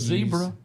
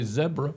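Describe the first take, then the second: First: The word is said in an American accent. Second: The word is said in a British accent.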